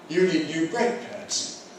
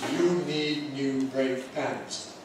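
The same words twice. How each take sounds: First: The main stress falls on the word brake. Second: The main stress falls on the word pads. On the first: The speaker calls it right. "Here's how it should be. ... The compound noun" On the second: The speaker calls it wrong. "Some people might say that to me like this: ... that's wrong"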